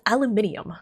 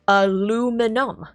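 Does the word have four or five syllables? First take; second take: five; four. First: The word has five syllables, with an extra i sound. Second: The word has four syllables, with no extra i sound. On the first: The speaker calls it wrong. "Brits pronounce it as aluminium. Where does the extra I come from?" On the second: The speaker calls it right. "the American pronunciation is aluminum"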